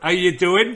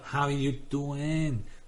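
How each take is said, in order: First: It is spoken in a West Country English accent. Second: It is spoken in a drawn-out Filipino accent. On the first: "West Country accent" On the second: "I can do good Tagalog because everything is drawn out"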